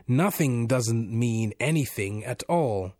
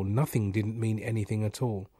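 First: "Nothing doesn't mean anything at all" slow and drawn out; savouring. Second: Said in the usual way. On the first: A narrator's reading. Unseen voice repeats the man's "Nothing doesn't mean anything at all", slowly savouring.

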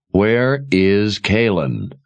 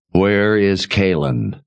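First: Slow, patience gone; losing patience; impatient. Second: Demanding. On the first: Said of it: "his patience at an end". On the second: Richard demands his wife. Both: A narrator's reading.

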